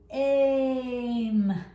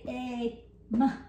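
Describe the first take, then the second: First: The two sounds are blended without a break. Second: The two sounds are separated by a break. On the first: The speaker calls it right. "Say aim. Do you hear how I'm just gluing it on?" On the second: The speaker calls it wrong. "Don't say a, m"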